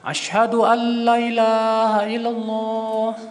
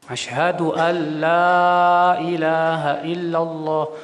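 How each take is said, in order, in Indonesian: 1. Vokal pada 'la' itu pendek. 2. Vokal pada 'la' itu panjang. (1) "La-nya itu dipendekin gitu" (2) "Kan harusnya panjang"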